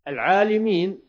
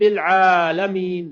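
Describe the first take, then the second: First: The vowel after the L is 'i'. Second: The vowel after the L is 'a'.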